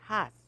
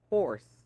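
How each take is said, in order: First: The r sound is dropped. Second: The r sound is clearly pronounced. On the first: "we don't have an R sound. ... I used to say has" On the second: "Did you hear that R?"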